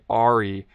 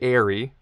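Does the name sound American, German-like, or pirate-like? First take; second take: pirate-like; American. First: It is said with an exaggerated, pirate-like R. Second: It is said like the English word airy. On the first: "which is a bit too like piratey" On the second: "a lot of Americans say airy, which is not correct"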